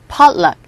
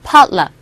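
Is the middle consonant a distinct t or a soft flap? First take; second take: soft flap; soft flap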